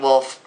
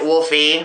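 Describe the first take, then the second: First: The name ends on the 'f' sound. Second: The name ends with an added 'ee' vowel. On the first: This is how the speaker says it. "I'm pronouncing it Wolf" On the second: Other people say it this way. "some people pronounce it Wolfie because of the fucking E on the end"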